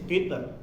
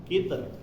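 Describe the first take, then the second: No difference in how they are said.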